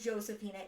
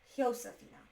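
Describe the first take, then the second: First: The name begins with an English J sound. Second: The name begins with an H sound. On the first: The speaker calls it wrong. "I've been mispronouncing this" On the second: The speaker calls it right. "J's are pronounced with an H in Spanish"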